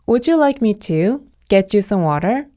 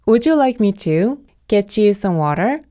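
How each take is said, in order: Both takes have the same delivery.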